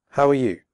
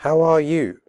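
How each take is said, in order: First: Fast with are reduced to er; quick connected question; quickly. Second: Slow with full are; careful slow question; slowly. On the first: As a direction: run it together quickly. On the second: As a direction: say each word clearly, slowly. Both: Shown as a demonstration. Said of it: "first slowly and then quickly".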